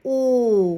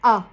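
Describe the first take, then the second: First: The vowel is long and closed, near 'oo'. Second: The vowel is very short and open, near 'a'. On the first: "θέλοντας να πω το, το ελληνικό το «ου» αλλά βγάζω τον ήχο «ο»" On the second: "ανοιχτό σαν «ο» και πάρα πολύ σύντομο"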